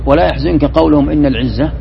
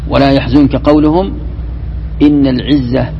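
First: The words run on with no pause after قولهم. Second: There is a pause after قولهم. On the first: The saying that glory belongs to God is their words. The speaker calls it wrong. "إذا قلت ولا يحزنك قولهم إن العزة هذا خطأ" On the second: The saying that glory belongs to God is a new statement. The speaker calls it right. "يلزمك أن تقف حتى لا يختل المعنى"

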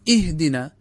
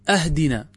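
First: The word begins with an 'i' vowel. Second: The word begins with a glottal stop and 'a'. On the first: It asks for guidance. The speaker calls it right. "بينما هو الصواب اهدنا" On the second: It asks for a gift. The speaker calls it wrong. "لو أن إنسانا قال أهدنا"

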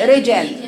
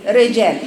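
No difference in how they are said.

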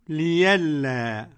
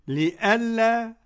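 First: The middle consonant is a y sound. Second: The middle consonant is a glottal stop. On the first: "ويبدل" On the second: "يعني يحقق"

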